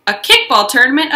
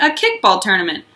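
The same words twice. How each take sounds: First: Kickball rising, a little louder; excited. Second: Said in the usual way. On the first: Acted. Junie announcing her kickball news, excited. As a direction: thrill over "kickball" tournament.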